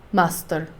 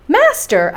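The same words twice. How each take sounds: First: Low, soft, unbothered "Master."; a hint of a stolid guide answering calmly; calm and quiet. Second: Outraged cry. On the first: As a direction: say it simply, without concern. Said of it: "calmly pointing to my uncle". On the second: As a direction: cry out in shocked disbelief. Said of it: "I cried". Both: A narrator's reading.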